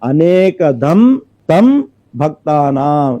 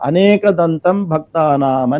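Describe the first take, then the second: First: The word dantam is split into two parts. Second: The word dantam is said as one unit. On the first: The god grants many boons to devotees. The speaker calls it right. "ఇలా విడదీసి పలకాలి" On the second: The god has many tusks. The speaker calls it wrong. "సర్వసాధారణంగా తొంభై తొమ్మిది శాతం జనాలు ఇట్లాగే చెప్తారు"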